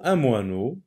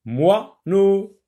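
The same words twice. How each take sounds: First: Said in the usual way. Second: "Moineau" in two higher beats, moi - neau; split into syllables. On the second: Shown as a demonstration. Teacher locating wa for pupils, "Moineau" broken into syllables. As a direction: pause between the halves of "Moineau". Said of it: "Toujours dans la première".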